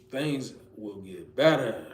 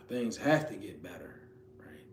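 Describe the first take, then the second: First: Said in the usual way. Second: Hushed, breathless whisper. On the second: Shown as a demonstration. Preacher to listeners at their lowest, whispered. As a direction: whisper it like a private vow. Affirming hope at lowest point.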